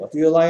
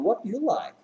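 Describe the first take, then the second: First: The question is said flatly, without real interest. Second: The question is said lively, sounding genuinely curious. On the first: The speaker calls it wrong. "이상하다" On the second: The speaker calls it right. "뭐 좋아하는지 진짜 궁금한 느낌 살려서"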